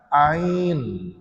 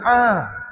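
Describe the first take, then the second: First: The full letter name with a glide is said. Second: Only a short bare vowel is said. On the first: The speaker calls it right. "Dia kena baca dengan bunyi huruf" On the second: The speaker calls it wrong. "Sampai ain dia baca a. Bukan a"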